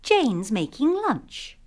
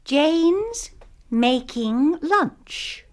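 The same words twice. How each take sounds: First: The sentence is spoken faster. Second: The sentence is spoken slowly. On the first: "kemudian dengan lebih cepat" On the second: "Mula-mula dengan perlahan-lahan"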